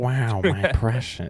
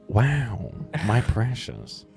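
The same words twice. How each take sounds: First: It is said in a raspy, creaky creature voice. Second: It is said in a relaxed, drawling laid-back voice. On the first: "one tiny vocal fry away from Smeagol" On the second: "It turns into Owen Wilson"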